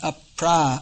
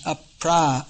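First: The vowel after pr is long. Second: The same.

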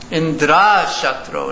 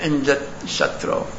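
First: The sound is drawn out long. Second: The sound is kept short. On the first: One whose enemy is Indra. The speaker calls it wrong. "Tvastha chanted it long" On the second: The enemy of Indra. The speaker calls it right. "instead of chanting the mantra short"

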